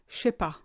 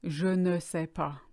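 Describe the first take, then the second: First: The ne is dropped from the phrase. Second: The ne is said between je and sais. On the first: "short for je ne sais pas" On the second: "It's actually short for"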